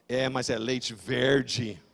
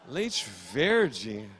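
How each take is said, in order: First: Low, slow accusing statement; ominous doorman. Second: Low questioning repeat; puzzled echo. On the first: Doorman accusing his friend over the milk, low and ominous. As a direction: draw out "verde" as a damning verdict, falling. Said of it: "Ele olhou e falou". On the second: Shopper baffled by the doorman's accusation, puzzled echo. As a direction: echo it back with "verde" rising as a question. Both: Retold or imitated.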